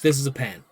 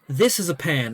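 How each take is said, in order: First: It is said plainly, like an ordinary person. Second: It is said theatrically, like a showman magician.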